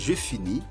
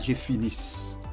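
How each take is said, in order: First: The final s sound is silent. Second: The final s sound is pronounced. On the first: The speaker calls it right. "On ne prononce pas la lettre S. On dit je finis" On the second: The speaker calls it wrong. "On ne dit pas je finisse. La lettre S ici est muette"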